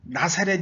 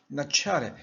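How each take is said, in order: First: The middle consonant is a plain s sound. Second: The middle consonant is a ts sound.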